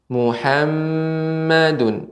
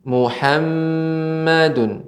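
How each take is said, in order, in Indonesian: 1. Huruf m ganda berdengung penuh. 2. Huruf m ganda berdengung penuh.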